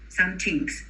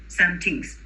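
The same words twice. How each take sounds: Both takes have the same delivery.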